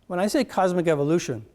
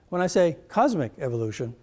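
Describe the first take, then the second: First: The stress is on the word evolution. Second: The stress is on the word cosmic.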